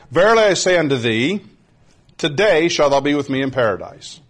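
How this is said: The pause comes before the word today.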